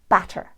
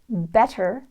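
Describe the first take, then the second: First: The vowel is widened toward short a. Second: The vowel is a plain American short e.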